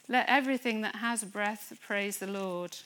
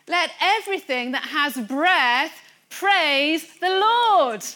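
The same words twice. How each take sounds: First: It is read in a flat, lifeless way. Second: It is read in a lively, expressive way. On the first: The words are read without faith. The speaker calls it wrong. "That's why we can't say" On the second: The words are read with faith. The speaker calls it right. "There's a slight difference. And that difference is life in the Spirit"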